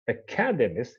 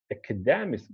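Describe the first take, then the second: First: "Academist" stressed on CAD; stress on second syllable. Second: "academist" wrongly stressed on DEM, falling; misplaced stress. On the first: Teacher citing the word as it really is, stress on CAD. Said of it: "the stress here remains on the second one". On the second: Teacher repeating the student's mistaken guess, stress moved to DEM. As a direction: say "academist" as aca-DEM-ist. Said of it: "put the stress on the syllable before the suffix". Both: Shown as a demonstration.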